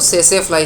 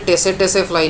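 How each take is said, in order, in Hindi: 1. इस शब्द की शुरुआत S ध्वनि से होती है, T नहीं। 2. इस शब्द की शुरुआत एक स्पष्ट T ध्वनि से होती है। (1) "आपको सेसे फ्लाई सुनाई देगा" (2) "ये टेसे टेसे फ्लाई नहीं है, टी इज़ साइलेंट"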